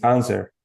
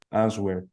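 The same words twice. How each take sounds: First: The W sound is silent. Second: The W sound is pronounced. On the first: The speaker calls it right. "and it's answer" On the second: The speaker calls it wrong. "I always make a mistake with that word"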